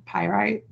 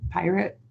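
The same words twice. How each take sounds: First: "pyrite" with a long i at the end, like "right"; pronunciation variant. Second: "pirate" with a short, unstressed final vowel; pronunciation variant. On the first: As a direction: say "pyrite" as PIE-rite. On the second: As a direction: say "pirate" as PIE-rit. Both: Shown as a demonstration. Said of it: "however you wanna pronounce it".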